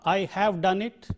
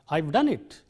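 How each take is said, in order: First: The word have is said in full. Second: The word have is contracted to a short v. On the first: The speaker calls it wrong. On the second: The speaker calls it right.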